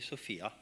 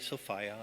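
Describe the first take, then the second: First: The middle syllable does not rhyme with 'fire'. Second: The middle syllable rhymes with 'fire'. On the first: It is the name of a human girl. The speaker calls it wrong. "I don't say Sophia, because Sophia is the name you would give to a human girl" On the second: It names the goddess. The speaker calls it right. "I say Sophia ... rhymes with desire"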